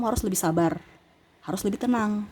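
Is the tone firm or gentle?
firm. It is said in a firm, forceful tone. The listener will actually pay attention. The speaker calls it right. "Nah ini harus intonasinya itu"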